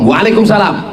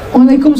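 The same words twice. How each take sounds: First: The voice is plain and firm, not breathy. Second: The voice is soft, breathy and lilting. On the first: The speaker calls it right. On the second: The speaker calls it wrong. "Jangan lemah lembut"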